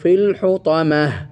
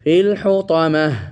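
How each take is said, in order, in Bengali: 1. শব্দটি একটি মৃদু 'h' ধ্বনি দিয়ে শেষ হয়। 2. শব্দটি একটি মৃদু 'h' ধ্বনি দিয়ে শেষ হয়।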